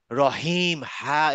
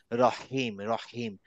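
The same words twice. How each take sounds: First: রহিম with a big, drawn-out হ; overdone big ha. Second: রহিম lower, with a small contained হ; restrained ha. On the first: Teacher shows what not to do, overblown হ in রহিম. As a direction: blow up the হ in রহিম too far. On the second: Teacher models the corrected word, restrained হ in রহিম. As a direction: keep the হ in রহিম short and unforced. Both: Shown as a demonstration. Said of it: "এরকম বড় করে হবে না".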